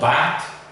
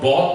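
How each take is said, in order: First: The vowel sounds like an open A. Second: The vowel sounds like a rounded O. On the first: "it's not bat" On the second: "it's not bot"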